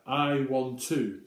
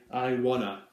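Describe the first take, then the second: First: It is said in a British English way. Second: It is said in an American English way.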